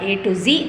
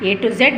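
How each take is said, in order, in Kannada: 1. ಕೊನೆಯ ಅಕ್ಷರವನ್ನ 'zee' ಅಂತ ಉಚ್ಚರಿಸ್ತಾರೆ. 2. ಕೊನೆಯ ಅಕ್ಷರವನ್ನ 'zed' ಅಂತ ಉಚ್ಚರಿಸ್ತಾರೆ. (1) "ಈಗ ಎ ಟು ಝಿ ಅಂತಲೇ ಕರೆಯೋದು" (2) "ಎ ಟು ಝೆಡ್ ಅನ್ನೋ ಅಲ್ಲ"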